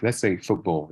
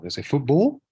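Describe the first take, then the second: First: Said in the usual way. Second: High, loud Scouse lilt rising on football; Scouse accent. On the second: Shown as a demonstration. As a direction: put on a Liverpool Scouse accent. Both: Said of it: "the Scouse accent".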